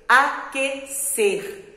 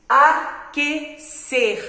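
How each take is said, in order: Both takes have the same delivery.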